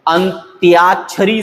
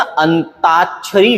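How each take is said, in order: First: अंत्याक्षरी with a clear 'tyaa'; correct form with y. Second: अंताक्षरी with plain 'taa', the y dropped; wrong form, no y. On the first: Teacher gives students the right word, अंत्याक्षरी with y glide. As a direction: slowly sound the y glide in अंत्याक्षरी. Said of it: "सही है". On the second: Teacher shows students the common mistake, अंताक्षरी without y. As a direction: say अंताक्षरी without any y glide. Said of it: "गलत है". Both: Shown as a demonstration.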